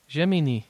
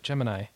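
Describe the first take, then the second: First: It is pronounced the Japanese way. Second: It is pronounced the English way.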